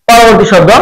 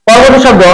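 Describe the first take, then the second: No difference in how they are said.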